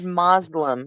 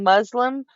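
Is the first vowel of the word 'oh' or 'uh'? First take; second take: oh; uh. First: The first vowel sounds like 'oh'. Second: The first vowel sounds like 'uh'. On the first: This is how people said it in the past. "we said Moslem and we spelled it M O S L E M" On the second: This is how people say it now.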